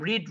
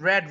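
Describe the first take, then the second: First: The vowel is long, like 'reed'. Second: The vowel is short, like 'red'. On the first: It is the present form of the verb. "এটা তিনটা ফর্মে একই রকম" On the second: It is the past form of the verb. "উচ্চারণটা রেড হয়"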